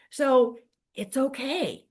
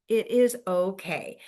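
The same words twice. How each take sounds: First: Said in the usual way. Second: "It is okay" with is leaned on firmly; stress on IS. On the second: Shown as a demonstration. Coach reassuring agents, stressing "is" in "It is okay". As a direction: insist on the word "is" in "It is okay".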